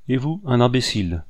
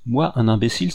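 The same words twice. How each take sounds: First: Said in the usual way. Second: IMBÉCILE echoed back in offended disbelief; rising on MOI, as a stung question; indignant exclamation. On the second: A narrator's reading. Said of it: "s'écria l'Anglais".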